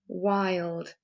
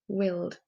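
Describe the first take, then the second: First: The vowel is long, as in 'eye'. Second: The vowel is short, as in 'tin'. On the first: The speaker calls it right. "Does that sound better?" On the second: The speaker calls it wrong. "if I try and put the I sound into these words, it doesn't sound right"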